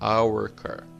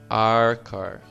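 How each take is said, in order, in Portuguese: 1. 'Our' é pronunciado por completo, como 'hour'. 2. 'Our' é reduzido para soar como 'are'. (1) "não está errado falar our" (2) "é preferível você falar are, como are do verbo to be mesmo"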